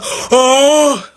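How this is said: The yawn sound is in a deep voice. "it's always just like a; their voices just get so deep"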